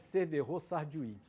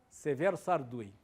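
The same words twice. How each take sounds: First: The name is said with French pronunciation. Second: The name is said with Spanish pronunciation. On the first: This is how most people call him. The speaker calls it wrong. "todo mundo chama de / como se fosse francês" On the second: This is how the man himself was called. The speaker calls it right. "O cara chamava-se"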